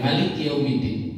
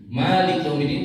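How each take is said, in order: First: The first vowel of Malik is short. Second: The first vowel of Malik is long. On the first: "mereka bacanya dengan pendek" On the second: "bacaan kita ... bacanya panjang"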